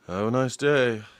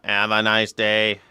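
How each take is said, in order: First: It is said in a normal human voice. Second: It is said in a flat robotic voice.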